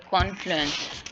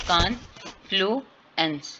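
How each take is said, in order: First: Said in the usual way. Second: "कॉन्फ्लुएंस" slowly split as कॉन, फ्लू, एंस; syllable by syllable. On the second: Shown as a demonstration. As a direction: sound out "कॉन्फ्लुएंस" in three separate beats. ("कॉन्फ्लुएंस" को तोड़कर धीरे बोलें) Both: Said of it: "वीक vowel sound है".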